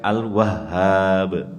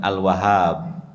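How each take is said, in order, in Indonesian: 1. Bunyi h-nya ganda dan ditahan. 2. Bunyi h-nya tunggal dan pendek. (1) "Haknya itu di tasdid"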